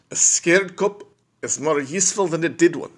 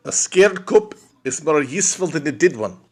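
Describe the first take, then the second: First: Higher, put-on South African accent; a fuller take on the South African accent. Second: Whispered, higher South African accent try; a first, hushed take at a South African accent. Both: Shown as a demonstration. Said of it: "South African accent, man".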